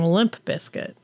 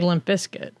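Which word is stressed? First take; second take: Limp; Bizkit. First: The stress is on the first word. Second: The stress is on the second word. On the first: "Emphasis for when you say it is on the limp" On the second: "When I'm saying it, it's on the biscuit"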